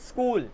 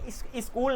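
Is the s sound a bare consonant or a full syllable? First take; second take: bare consonant; full syllable. First: The s is a short bare consonant. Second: The s is said with its own vowel. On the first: The speaker calls it right. "ये है स्कूल" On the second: The speaker calls it wrong. "ये स्कूल नहीं है"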